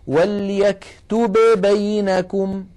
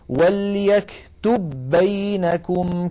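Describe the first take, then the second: First: The two b sounds are pronounced separately. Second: The two b sounds merge into one doubled b. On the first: The speaker calls it wrong. "فالعرب أبدا ما تقول وليكتب بينكم، لا يفعلون ذلك ويعدونه لحنا قبيحا" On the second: The speaker calls it right. "بل يقولون وليكتب بينكم كاتب بالعدل"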